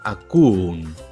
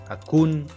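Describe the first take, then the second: First: Two vowels are said one after another. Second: The vowels are contracted into one sound. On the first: The speaker calls it wrong. "Estos sonidos de vocales consecutivas no suenan muy agradables" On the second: The speaker calls it right. "solemos contraer ... la conjugación correcta"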